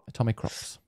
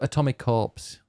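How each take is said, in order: First: The name ends with the sound 'crops'. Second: The name ends with the sound 'corps'. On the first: The speaker calls it right. "because it's about crops that you grow" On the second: The speaker calls it wrong. "you called it. Like a corporation"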